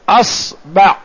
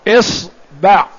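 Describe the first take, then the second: First: The word begins with the vowel a. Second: The word begins with the vowel i.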